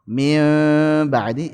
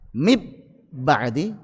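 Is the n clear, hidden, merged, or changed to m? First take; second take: hidden; merged. First: The n is hidden, lightly nasalized. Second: The n is merged into a doubled b.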